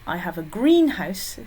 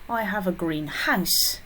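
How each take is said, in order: First: The stress is on the word green. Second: The stress is on the word house.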